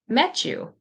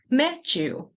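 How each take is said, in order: First: The T and Y blend into a ch sound. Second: The T and Y blend into a ch sound.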